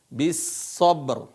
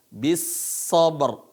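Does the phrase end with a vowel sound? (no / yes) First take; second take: no; no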